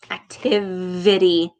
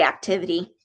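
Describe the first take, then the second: First: Deliberate "Activity" with a buzzed v; V brought out. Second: Said in the usual way. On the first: Shown as a demonstration. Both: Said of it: "Did you hear that again?".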